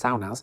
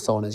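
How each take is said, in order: First: The word is said with a Finnish-style pronunciation. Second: The word is said with an English-style pronunciation. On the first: The speaker calls it right. "you pronounce it saunas" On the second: The speaker calls it wrong. "not saunas"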